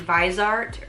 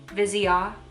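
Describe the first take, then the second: First: The name is said with anglicized pronunciation. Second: The name is said with French pronunciation. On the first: The speaker calls it wrong. "I thought it was like maybe Visart" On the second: The speaker calls it right. "It's like how you say it in French"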